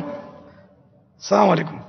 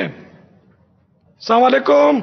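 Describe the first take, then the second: First: Slow السلام علیکم with every sound clear, 'salaam' fully said; careful salam. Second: Slow, drawn-out السلام علیکم with a swallowed 'ss' sound; mumbled careless greeting; sloppy salam. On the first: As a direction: articulate السلام علیکم properly. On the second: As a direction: mouth السلام علیکم lazily, the common mistaken way. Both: Shown as a demonstration. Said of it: "اگر آپ نے صحیح بھی کہہ دیا".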